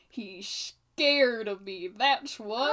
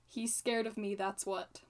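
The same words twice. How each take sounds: First: It is said with lively, expressive intonation. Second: It is said in a flat monotone.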